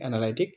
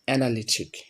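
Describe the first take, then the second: First: The third syllable has an 'eye' vowel. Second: The third syllable has a short 'i' vowel. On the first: The speaker calls it wrong. "আমরা উচ্চারণ করি অ্যানালাইটিক" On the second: The speaker calls it right. "সঠিক উচ্চারণ হবে অ্যানালিটিক"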